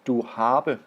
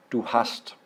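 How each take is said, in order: First: "du habe" given as the mistaken German form; wrong form. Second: "du hast" given as the correct German form. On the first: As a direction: offer "du habe" as the wrong version. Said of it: "It is not". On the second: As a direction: land on "du hast" as the right answer. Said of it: "it is du hast". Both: Shown as a demonstration.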